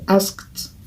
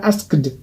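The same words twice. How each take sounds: First: The ending is said as a bare t sound. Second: The ending is said as an extra syllable. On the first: The speaker calls it right. "c'est asked" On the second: The speaker calls it wrong. "Ce n'est pas asked"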